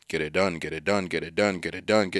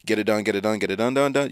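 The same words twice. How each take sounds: First: Monotonous and dull. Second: "get it done" chanted quickly in a lilting tune; too bright, colorful. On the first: Retold or imitated. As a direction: drone get it done, lifeless and robotic. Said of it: "more monotonous and more dull". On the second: Shown as a demonstration. Recalling racing thoughts in the wrong tune, bright. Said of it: "that tune sounded ... bright and colorful".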